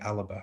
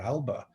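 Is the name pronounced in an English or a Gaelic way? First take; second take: Gaelic; English. First: The name is said the Gaelic way. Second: The name is said the English way. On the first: The speaker calls it right. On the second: The speaker calls it wrong.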